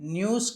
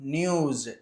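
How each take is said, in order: First: The word ends with a hissing s sound. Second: The word ends with a buzzing z sound. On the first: The speaker calls it wrong. "న్యూస్ కాదు" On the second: The speaker calls it right. "ఎస్ని జాలాగా చదవాలి"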